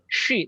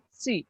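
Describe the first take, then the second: First: It begins with a hushing sh sound. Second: It begins with a hissing s sound. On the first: The speaker calls it wrong. "bukan shi" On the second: The speaker calls it right. "tapi si"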